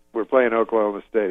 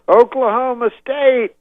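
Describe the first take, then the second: First: Said in the usual way. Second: High, loud, drawn-out stadium call; crowd-rousing yell. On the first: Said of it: "he goes". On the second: Retold or imitated. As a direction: whip up the crowd. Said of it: "He goes".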